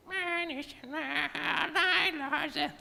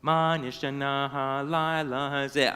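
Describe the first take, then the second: First: Very high, soft squeaky parrot voice. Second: Sung Hebrew line. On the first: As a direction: squawk it back like a parrot. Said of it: "repeated in his parrot squeaky voice". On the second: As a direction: sing it gently like a child at the Seder. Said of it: "I sang". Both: A narrator's reading.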